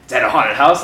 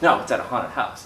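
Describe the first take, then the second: First: "house" lifted into a question; questioning echo. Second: Low, falling statement; matter-of-fact correction. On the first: Echoes friend's words as question. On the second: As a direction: correct them matter-of-factly, pitched low. Friend corrects a misunderstanding. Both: Retold or imitated.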